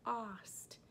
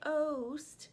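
First: The vowel is a short ah sound. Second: The vowel is a long oh sound. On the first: The speaker calls it right. "It's the ah, it's the short sound" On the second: The speaker calls it wrong. "We don't say oast"

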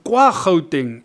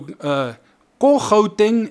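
First: The first word is said as full 'kwa'. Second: The first word is said as short 'ko'. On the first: This is the formal written standard. "if you take the written language, you will have kwa. Academically correct" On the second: This is casual everyday speech. "they are speaking faster and it's just the spoken kind of street Setswana"

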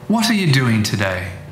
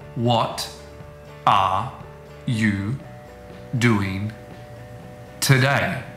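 First: The words join smoothly in a tidy way. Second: Each word is said separately and clearly. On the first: "Words start joining together, but in a nice, orderly way" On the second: "This is called the citation form of a word, and they're not influenced by other words around them"

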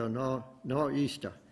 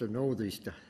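First: The word is clipped to nor'easter without th. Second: The word is said in full, with the th. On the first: The speaker calls it wrong. "they'll say a northeaster, and that's not right" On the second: The speaker calls it right. "it's a northeaster"

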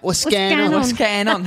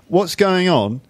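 First: It is said in a put-on Cockney accent. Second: It is said in a plain, neutral accent. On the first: "It's like with this London, with this Cockney accent" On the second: "That's usually what we say to each other when we meet"

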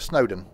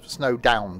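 First: The last syllable sounds like a short 'don'. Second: The last syllable sounds like the word 'down'. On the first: The speaker calls it wrong. "I pronounced it wrong" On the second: The speaker calls it right. "Because snow doesn't go up, does it? It generally down"

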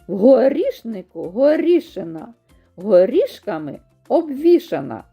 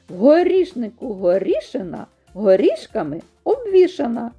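First: It is said at a slower, ordinary pace. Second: It is said at a faster pace.

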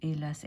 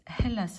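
First: The word begins directly with the vowel. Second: The word begins with an audible h sound. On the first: The speaker calls it right. "H 발음 안 되는 거" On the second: The speaker calls it wrong. "Hélas 아니고"

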